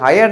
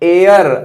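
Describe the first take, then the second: First: It begins with h and sounds like hire. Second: It begins with a vowel and sounds like air. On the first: The speaker calls it wrong. "हायर नहीं पढ़ते" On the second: The speaker calls it right. "बल्कि इसको पढ़ेंगे एयर"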